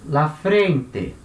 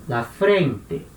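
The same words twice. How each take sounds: No difference in how they are said.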